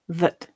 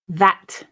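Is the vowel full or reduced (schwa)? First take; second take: schwa; full. First: The vowel is reduced to a schwa. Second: The vowel is full and unreduced. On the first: "just thinking about the ones with schwa" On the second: "I'll read the strong and weak form"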